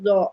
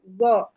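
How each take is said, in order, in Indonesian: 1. Konsonannya tipis, seperti z biasa. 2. Konsonannya tebal, pangkal lidah naik. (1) "bukan zo" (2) "jika ingin tebal ... jadi go"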